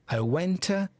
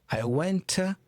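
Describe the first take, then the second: The two takes are said the same way.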